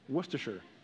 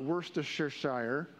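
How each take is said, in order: First: The name is said in a shorter, simpler form. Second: The name is said in a longer, fuller form. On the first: The speaker calls it right. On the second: The speaker calls it wrong.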